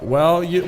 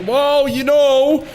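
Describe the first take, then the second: First: Said in the usual way. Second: Well, you know, pitched way up and stretched slowly; high drawn-out sing-song. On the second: Pretend. Streamer teasing the opponent, high sing-song. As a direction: float it up high and slow, teasing. Repeated catchphrase, sung out high.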